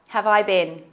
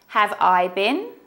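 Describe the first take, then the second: First: It is said at a faster pace. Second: It is said at a slower pace.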